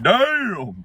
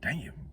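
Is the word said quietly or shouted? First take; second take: shouted; quietly. First: The word is screamed loudly. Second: The word is said at normal, quiet volume.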